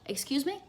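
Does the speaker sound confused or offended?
confused. It sounds puzzled and asking. The listener did not understand what was said. "This means I didn't understand"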